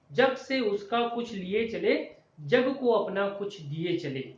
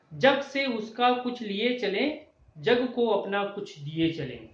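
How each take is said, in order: Both takes have the same delivery.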